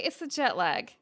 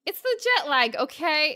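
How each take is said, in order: First: Said in the usual way. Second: Louder, higher jet lag insisted; insistent. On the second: Acted.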